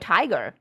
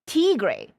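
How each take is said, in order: First: It is said like the English word tiger. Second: It is said Spanish-style, ending in 'gray'. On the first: "I was pronouncing it as Furio Tiger" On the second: "Like Spanish"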